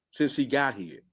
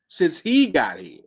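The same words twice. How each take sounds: First: Said in the usual way. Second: "Since he got here." slow, each word pressed down; slow emphatic repeat. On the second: Shown as a demonstration. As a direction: drag "Since he got here." out to drive the point home.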